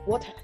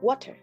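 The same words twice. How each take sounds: First: A British accent with a rounded vowel. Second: An American accent with a flatter sound. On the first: "In the U K, it's often pronounced like water" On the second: "in the U S, you might hear water"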